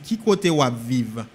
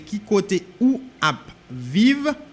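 First: The words are linked and run together. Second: The words are said separately without linking.

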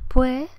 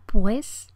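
First: The final s is dropped, vowels drawn out. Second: The consonants are tense and the final s is clear. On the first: "Como andaluza lo que digo es pues" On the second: "un hablante castellano articularía pues y entonces con las consonantes tensas"

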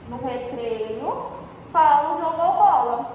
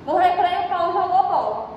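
First: There is a pause after recreio. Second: It is said without a pause after recreio.

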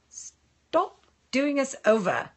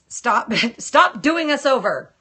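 First: It is said in a British accent. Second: It is said in the speaker's usual accent.

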